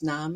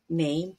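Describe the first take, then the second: First: It is said with the older, German-like vowel. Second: It is said with the modern English vowel. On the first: This is how it sounded before the vowel shift. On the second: This is how it sounds today.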